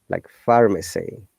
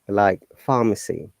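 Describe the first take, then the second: First: The R sound is clearly pronounced. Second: The R sound is left out. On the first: This is the American way. "But in American accent, you must pronounce it" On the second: This is the British way. "most of the cases we do not pronounce letter R at all"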